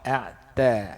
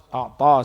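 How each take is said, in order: First: The t sound is pronounced thin and light. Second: The t sound is pronounced thick and heavy. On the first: The speaker calls it right. "A'ta yang betulnya" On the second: The speaker calls it wrong. "a'ta salah"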